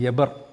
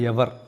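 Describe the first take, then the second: First: The middle consonant is a b sound. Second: The middle consonant is a v sound. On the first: "இவருடைய பேர் வந்து எபர்" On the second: "ஹீப்ரூவில் எவர்"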